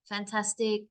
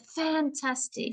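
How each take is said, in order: First: It is said flat, on one level tone. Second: It is said with push and energy.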